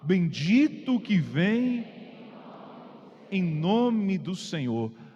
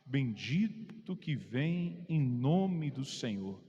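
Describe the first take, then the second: First: It is said at normal volume. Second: It is said more softly.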